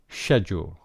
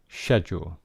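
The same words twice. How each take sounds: First: It is said with a British accent. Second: The same.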